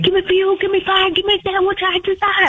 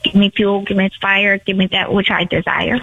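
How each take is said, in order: First: It is said quickly. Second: It is said at a normal pace.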